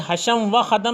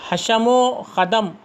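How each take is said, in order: First: A separate 'va' stands between the words. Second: The 'o' is joined onto the first word. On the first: The speaker calls it wrong. "इसको इस तरह ना पढ़े" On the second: The speaker calls it right. "वाव को उससे पहले हर्फ में मिलाकर पढ़ना चाहिए"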